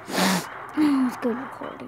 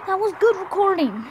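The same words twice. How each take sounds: First: Said in the usual way. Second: Higher and louder, exasperated; loud, high, exasperated complaint; loud frustrated lament. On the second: Real, not acted. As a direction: wail it at the lost recording. Upset the recording is lost.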